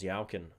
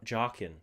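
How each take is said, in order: First: The name begins with a y sound. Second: The name begins with a j sound. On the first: The speaker calls it wrong. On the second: The speaker calls it right.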